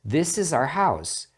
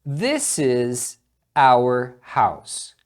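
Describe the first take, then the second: First: 'Our' is reduced and sounds like 'are'. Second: 'Our' is said fully, like 'hour'. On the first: "Então você escuta como are" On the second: "Aqui também você pronuncia da mesma forma"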